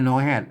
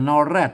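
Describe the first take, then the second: First: The second syllable begins with an h sound. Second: The second syllable begins with an r sound. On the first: This is the northern Thai reading. "ถ้าเป็นเมืองมันออกฮอ" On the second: This is the standard Thai reading. "ถ้าไทยกับ นอแรด ... ถ้าเป็นไทยเพิ่นออกรอ"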